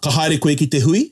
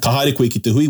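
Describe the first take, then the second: First: It ends rising, like a question. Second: It ends falling, like a statement.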